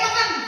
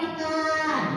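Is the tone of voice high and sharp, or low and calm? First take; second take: high, sharp; low, calm. First: The voice is pitched high and sounds sharp. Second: The voice is pitched low and sounds calm. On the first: The speaker calls it wrong. "Nah itu kan ke atas ya" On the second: The speaker calls it right. "ke bawah"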